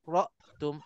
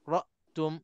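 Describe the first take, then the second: Both takes have the same delivery.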